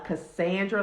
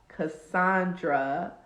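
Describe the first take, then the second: First: The middle vowel sounds like the a in sand. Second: The middle vowel is an open ah sound.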